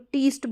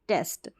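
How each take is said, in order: First: The vowel sounds like 'ee'. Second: The vowel sounds like 'eh'. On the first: The speaker calls it wrong. "ई को हम ई ही पढ़ देंगे" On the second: The speaker calls it right. "ई को ए, ए इस तरीके से पढ़ा जाता है"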